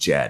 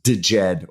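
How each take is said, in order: First: The word begins directly with the 'j' sound. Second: A separate 'd' sound comes before 'jed'. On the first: "or just Jed. I'm going to go with just Jed" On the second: "I'm not sure if it's pronounced DeJed"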